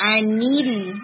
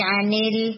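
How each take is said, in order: First: انل with a clear lam sound; teacher gives the right انل; correct version. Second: انل said slowly the wrong way; teacher imitates the student's mistaken انل; wrong version. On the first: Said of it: "انل نہیں". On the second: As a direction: mimic the weak انل sound. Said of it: "نہیں". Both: Shown as a demonstration.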